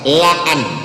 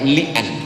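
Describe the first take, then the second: First: The first vowel is an open 'a' sound. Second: The first vowel is a close 'i' sound. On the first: The speaker calls it right. "yang betul adalah la'an" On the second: The speaker calls it wrong. "bukan li'an"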